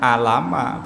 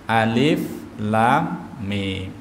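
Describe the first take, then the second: First: The letters are run together as one word. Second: Each letter is said by its full name. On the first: The speaker calls it wrong. "Dibacanya bukan alama" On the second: The speaker calls it right. "tapi alif lam mim"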